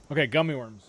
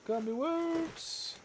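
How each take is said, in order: First: Said in the usual way. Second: High, slow drawn-out sing-song. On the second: Real, not acted. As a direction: croon it like a little tune. Sing-song repeat of candy.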